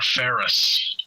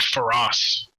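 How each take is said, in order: First: The word is said like 'ferrous', as in iron. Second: The word is said like 'feroz', ending in 'roz'. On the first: The speaker calls it right. "they're made of iron, so they're ferrous" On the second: The speaker calls it wrong. "they're not feroz"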